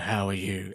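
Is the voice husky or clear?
husky. The voice is low and husky. This is before the patch takes effect. "her husky voice"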